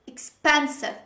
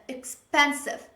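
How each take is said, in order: First: The stress is on the second syllable. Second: The same.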